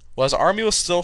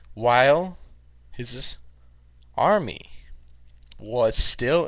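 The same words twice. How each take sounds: First: It is read at a normal speed. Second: It is read at a slow speed. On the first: "Normal pace"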